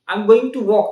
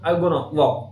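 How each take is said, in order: First: 'Going to' is said fully as two words. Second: 'Going to' is reduced to 'gonna'.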